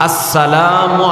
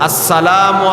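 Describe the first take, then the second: No difference in how they are said.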